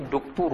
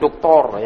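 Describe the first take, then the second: First: The vowels are rounded u sounds with pursed lips. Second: The vowels are open o sounds without rounding. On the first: The speaker calls it right. "duktur dihimpun mulutnya" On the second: The speaker calls it wrong. "bukan doktor ya. Kalau kita doktor ya"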